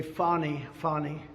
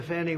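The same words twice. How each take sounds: First: "Fani" said as FAH-nee; broad "ah" in the first syllable of "Fani"; her own pronunciation. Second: Said in the usual way. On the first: Retold or imitated. Speaker correcting to the prosecutor's way of saying "Fani", with an "ah". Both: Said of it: "or as she would say".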